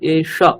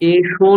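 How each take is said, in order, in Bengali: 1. শব্দটি হ্রস্ব 'a' স্বরধ্বনি দিয়ে শেষ হয়। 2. শব্দটি 'o' স্বরধ্বনি দিয়ে শেষ হয়। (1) "এষ অকার" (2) "এষো নয় কিন্তু"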